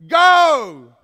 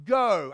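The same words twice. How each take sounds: First: "Go!" as a huge, much louder shout; exclamation shout. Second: Said in the usual way. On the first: Shown as a demonstration. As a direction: bark "Go!" like a command. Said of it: "It's not the exclamation point". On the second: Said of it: "It's not".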